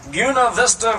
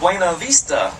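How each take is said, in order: First: It is said the way local people pronounce it. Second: It is said the way outside visitors pronounce it. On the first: This is how the town's own people say it. "that we pronounce Buena Vista" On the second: This is how visitors say it. "A lot of folks come in there and they say, nope"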